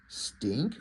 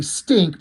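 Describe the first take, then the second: First: STINK as a soft question, rising at the end; much softer, lower start lifting into a question. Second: Mild mock yell; a cat's yell of STINK, only lightly raised; "Stink" as a firm statement, falling; retold yell. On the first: Acted. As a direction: say "Stink" quietly puzzled, voice sliding up. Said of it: "Like, with a question mark".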